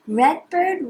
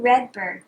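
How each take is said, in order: First: Higher, bright calling tone; sing-song call. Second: Dropped, settling repeat. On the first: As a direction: call out the name. Repeat call. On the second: Repeat lower. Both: Shown as a demonstration.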